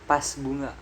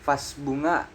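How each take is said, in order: First: The first word begins with a P sound. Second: The first word begins with a V sound. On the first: The speaker calls it wrong. "bukan pas bunga" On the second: The speaker calls it right. "Contoh yang benarnya ini vas bunga"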